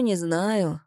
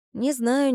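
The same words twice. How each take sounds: First: «не знаю» dropping down in a falling, resigned tone; с сомнением, понижая тон на «не знаю»; doubtful fall. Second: «знаю» lifted high in a doubtful rising question; first «Не знаю» climbs up on «знаю», unsure; сомневаясь, с подъёмом на «знаю»; doubtful rise. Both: A narrator's reading. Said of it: "не скрывая сомнения в голосе".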